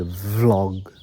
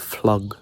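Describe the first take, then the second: First: The word begins with a V sound. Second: The word begins with an F sound. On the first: The speaker calls it right. "she says vlog. It's vlog" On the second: The speaker calls it wrong. "I say flog"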